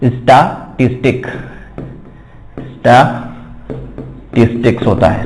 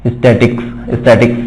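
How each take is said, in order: First: "स्टैटिस्टिक्स" spelled out slowly with every syllable, sta-tis-tiks; slow, careful model of "स्टैटिस्टिक्स" with the full "टिस"; correct pronunciation. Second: "स्टैटिक्स" said with the middle "टिस" syllable dropped, as the wrong version; common mispronunciation. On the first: Shown as a demonstration. Teacher modelling the right word for students, slowly sounding out "स्टैटिस्टिक्स". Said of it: "लेकिन actual में होता क्या है".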